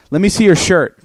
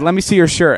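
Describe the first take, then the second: First: Louder, higher commanding demand; loud mock interrogation. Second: Louder, higher commanding demand; loud mock cop order. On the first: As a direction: order him like a cop. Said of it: "Jonah goes to him and goes". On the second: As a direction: bark it like an FBI agent. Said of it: "He's like".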